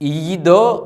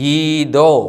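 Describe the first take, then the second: First: The word is said with a y sound. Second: The word is said without a y sound. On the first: The speaker calls it wrong. "ഈദോ എന്നല്ല, യൂദ് ഉച്ചരിക്കുന്നില്ല" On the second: The speaker calls it right. "ഈദോ എന്നാണ് ഈ വാക്ക് വായിക്കുന്നത്"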